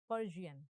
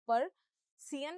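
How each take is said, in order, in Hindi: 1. बीच का व्यंजन 'zh' ध्वनि है। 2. बीच का व्यंजन सादा 's' ध्वनि है। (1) "जियन है" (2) "पर सियन नहीं है"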